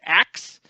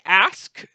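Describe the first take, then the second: First: The word ends with a k then s sound. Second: The word ends with an s then k sound. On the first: "some people say ax" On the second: "some people say ask"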